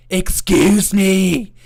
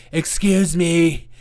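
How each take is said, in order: First: High, slow, indignant put-on voice, louder; angry leftist voice. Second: Slow, offended "Excuse me" with a falling end; angry leftist voice. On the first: Mocking an angry leftist, indignant high put-on voice. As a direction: drag out "Excuse me" in an offended squeal. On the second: Retold or imitated. Mocking an angry leftist, slow offended repeat. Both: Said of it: "That's my angry leftist voice".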